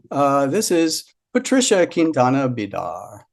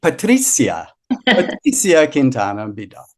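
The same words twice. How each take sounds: First: "Patricia" said as pa-TRISH-a, "Quintana Bidar" English style; first try at name. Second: "Patricia" said pa-TREE-see-a, with an s sound and no sh; corrected name. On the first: Host introduces reader, saying "Patricia" as pa-TRISH-a. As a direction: say "Patricia" with a sh sound in the middle. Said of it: "I know I'm pronouncing everybody's names very". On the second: Host corrects the reader's name after her hint, saying "Patricia" as pa-TREE-see-a. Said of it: "Do German". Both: Real, not acted.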